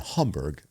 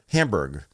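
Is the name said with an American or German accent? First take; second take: German; American. First: The name is said with a German accent. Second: The name is said with an American accent. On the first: "I'm trying to pronounce it all German" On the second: "I'll be American"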